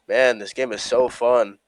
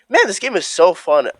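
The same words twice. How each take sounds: First: It sounds sarcastic and mocking. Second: It sounds sincere and genuinely pleased.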